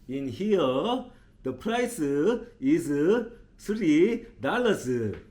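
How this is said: It is said in a strong Korean accent. "그분은 어떻게 발음을 하셨냐면"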